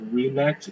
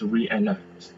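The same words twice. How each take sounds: First: The two e vowels blend into one sound. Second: The two e vowels are pronounced as separate sounds. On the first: The speaker calls it wrong. "It's not reenact" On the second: The speaker calls it right. "it's reenact"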